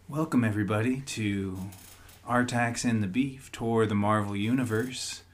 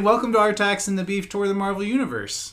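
First: It is said in a put-on NPR radio voice. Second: It is said in his ordinary speaking voice.

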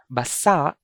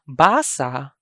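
First: The stress is on the last syllable. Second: The stress is on the first syllable. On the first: It means wet. "Basa is an adjective, means wet" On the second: It means to read. "Basa means to read"

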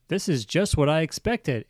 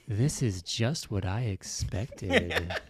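First: It is read in an ordinary, neutral voice. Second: It is read in a low, seductive voice.

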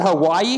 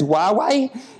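First: The name sounds like the word Hawaii. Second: The name sounds like wah-way. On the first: The speaker calls it wrong. "I call it Hawaii because I don't really know how to pronounce it" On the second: The speaker calls it right. "but people say it's Huawei"

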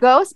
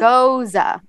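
First: It is said as one syllable, like ghost. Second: It is said as two syllables, like goza. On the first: The speaker calls it wrong. "I pronounce it ghost" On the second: The speaker calls it right. "you should pronounce it goza"

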